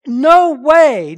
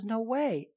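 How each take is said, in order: First: Loud, high, ringing No way; very emphatic. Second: Said in the usual way. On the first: Shown as a demonstration. Preacher shouting Paul's answer to the congregation, emphatic. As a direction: slam it down with full force. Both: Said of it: "No, it's very emphatic".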